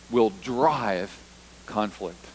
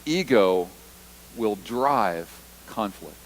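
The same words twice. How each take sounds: First: "Ego will drive conflict" spaced out word by word, "drive" leaned on; slow deliberate emphasis. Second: "Ego will drive conflict" again, each word separated by pauses, "drive" stressed; slow repeated emphasis. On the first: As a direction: drop each word slowly and let "conflict" fall. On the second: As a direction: repeat it slower so it sinks in. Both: Shown as a demonstration. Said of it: "Let me say that again".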